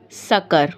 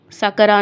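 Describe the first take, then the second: First: सकर ending on a plain r; no vowel after r in सकर; stopped ending. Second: सकरा with "aa" after the r; wrong vowel ending. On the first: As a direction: lower सकर stopped on the consonant. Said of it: "सकरा नहीं पढ़ेंगे आप". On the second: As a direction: finish सकरा on an open "raa". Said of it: "सकरा नहीं पढ़ेंगे". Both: Shown as a demonstration.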